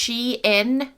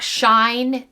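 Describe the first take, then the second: First: The name is said as two syllables, she-in. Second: The name is said as one syllable, shine. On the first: The speaker calls it right. "It's Shein" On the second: The speaker calls it wrong. "not Shine"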